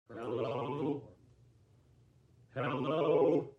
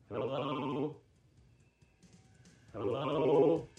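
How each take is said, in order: No difference in how they are said.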